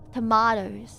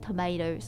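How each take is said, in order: First: It is said with a British accent. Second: It is said with an American accent.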